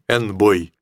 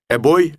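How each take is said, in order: First: An n sound comes before the word. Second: A bare vowel comes before the word, without n. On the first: The speaker calls it wrong. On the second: The speaker calls it right.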